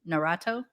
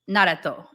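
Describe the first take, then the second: First: The name is said with English-style pronunciation. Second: The name is said with Japanese-style pronunciation. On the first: This is how other people say it. "I guess they say" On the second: This is how it is said at home. "Naruto is how I would say it"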